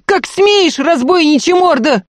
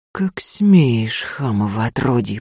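First: Very high, loud indignant shriek; outraged cry. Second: Contained indignation, voice held down; quiet anger. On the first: Maid berating the robber who struck her lady, shrieking. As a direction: scream the rebuke at full pitch. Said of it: "вскричала Дунька". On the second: Lady to the robber who dragged her out, quietly angry. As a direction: rebuke him with quiet, restrained anger. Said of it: "сказала тихо, гневно". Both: A narrator's reading.

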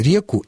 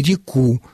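First: Реку stressed on the е; stress on first syllable of реку. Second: Реку stressed on the final у; stress on last syllable of реку. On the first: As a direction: hit ре in реку. (ударение на первый слог: реку) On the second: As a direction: hit ку in реку. (ударение на последний слог: реку) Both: Shown as a demonstration. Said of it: "совершенно равноправные варианты".

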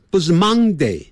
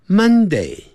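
First: Monday said with "mang" like 忙; Monday with a nasal "ng", like 忙; wrong Monday. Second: Monday with a short "mun"; Monday starting like 闷; correct Monday. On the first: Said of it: "不是忙". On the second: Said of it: "这样就对了". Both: Shown as a demonstration.

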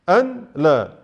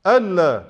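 First: أن لا as two words, a break after the n; أن لا cut apart, "an, laa"; separated form. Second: ألا run together as one word, "allaa"; ألا as a single unbroken word; joined form. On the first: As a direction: say أن clearly, pause, then لا. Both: Shown as a demonstration. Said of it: "كتبت مرة موصولة ومرة مقطوعة".

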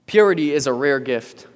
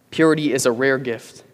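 The two takes are said the same way.

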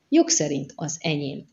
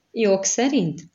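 First: Said in the usual way. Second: SZERINT pitched up, then falling, as a mocking question; sarcastic echo. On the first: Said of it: "nem törődött a szarkasztikus hangnemmel". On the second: A narrator's reading. Doubting a companion's claim to the money, sarcastic. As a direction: throw "Jog szerint?" back with mild sarcasm. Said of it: "a szarkasztikus hangnemmel".

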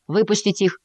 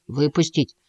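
First: «Выпустить» с высоким вопросительным ударением; спросить, подняв голос на «Выпустить»; вопрос. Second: Said in the usual way. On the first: A narrator's reading. Мартин спрашивает совета у мыши. (неуверенно переспросить с ударением на «Выпустить»)

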